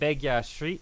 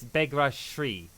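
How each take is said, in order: First: The first name has no R sound. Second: The first name has an R sound. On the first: The speaker calls it wrong. "I want to say it" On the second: The speaker calls it right.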